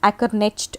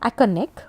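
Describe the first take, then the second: First: The name ends with a final t sound. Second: The name ends without a final t sound. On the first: "some people say, say it as Ackernecht also" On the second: "pronounce this uh, as Ackerneck"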